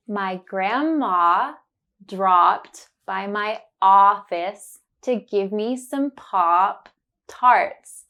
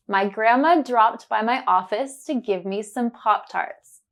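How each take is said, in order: First: Slow careful sentence, leaning on the ah words; slow, focused on the sound. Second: Said in the usual way. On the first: Shown as a demonstration. Teacher slowly modelling the sentence for learners. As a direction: say it slowly, stressing grandma, dropped and Pop Tarts. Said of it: "I will say it slowly and focus on the sound". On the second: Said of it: "Then you will hear it naturally".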